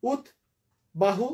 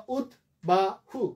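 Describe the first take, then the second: First: উদ্বাহু as ud, long pause, bahu; two-part split. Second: উদ্বাহু as ud, ba, hu, spaced apart; three-part split. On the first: Teacher offering one way to divide it, ud then bahu. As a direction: pause after the first syllable of উদ্বাহু. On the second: Teacher offering another division, three separate syllables. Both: Shown as a demonstration. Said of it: "অথবা".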